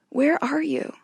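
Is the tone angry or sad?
sad. It is said gently, with a sad, broken-hearted tone.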